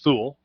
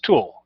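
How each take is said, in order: First: The name starts with a 'th' sound. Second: The name starts with a plain 't' sound. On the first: This is how people guess it from the spelling. The speaker calls it wrong. "you assume it's pronounced Thule" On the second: This is how the family actually says it. The speaker calls it right. "but it's pronounced Tool"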